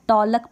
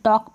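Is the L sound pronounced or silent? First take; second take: pronounced; silent. First: The L sound is pronounced before the K. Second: The L sound is silent before the K. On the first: The speaker calls it wrong. "कभी आप टालक पढ़ते हैं या टॉलक पढ़ते हैं" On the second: The speaker calls it right. "नहीं टॉक पढ़ते हैं इसको"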